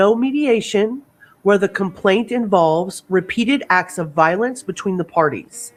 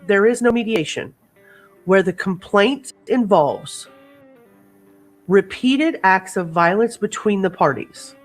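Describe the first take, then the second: First: It is said at normal speed. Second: It is said slowly and deliberately.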